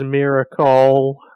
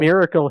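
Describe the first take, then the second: First: The word's ending is changed to rhyme. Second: The word is said with its usual pronunciation. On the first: "he says miracle. So it rhymes" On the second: "instead of saying"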